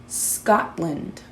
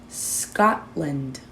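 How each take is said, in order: The two takes are said the same way.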